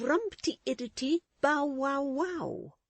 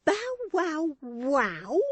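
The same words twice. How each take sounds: First: Said in the usual way. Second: "Bow wow wow" slow and high, last "wow" stressed with scorn; blighting contempt. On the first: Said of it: "repeated in a tone of withering scorn". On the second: A narrator's reading. Wife repeating his song, stressing the last wow with contempt. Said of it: "emphasis of blighting contempt on the last syllable".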